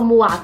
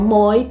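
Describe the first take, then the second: First: The word ends with a 'wa' sound. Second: The word ends with an 'oy' sound. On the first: This is the modern pronunciation. "Então você não falava moi" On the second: This is the old pronunciation. "você falava moi"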